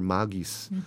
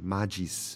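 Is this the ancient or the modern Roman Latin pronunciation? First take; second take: ancient; modern. First: It is said with the ancient Latin pronunciation. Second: It is said with the modern Roman Latin pronunciation. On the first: "古老的拉丁、发音，就是magis" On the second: "比较现代的拉丁文，现在的比如说在意大利罗马，他们用的是magis"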